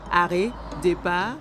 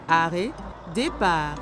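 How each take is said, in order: Both takes have the same delivery.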